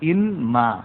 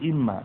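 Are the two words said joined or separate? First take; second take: separate; joined. First: The n is kept and the words stay separate. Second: The n merges into a doubled m sound. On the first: The speaker calls it wrong. "এটা মূলত কি ছিল, ইন মা" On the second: The speaker calls it right. "কিন্তু এটাকে মিলানো হয়েছে ইম্মা"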